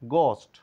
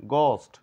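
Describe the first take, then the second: Both takes have the same delivery.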